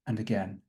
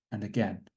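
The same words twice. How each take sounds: The two takes are said the same way.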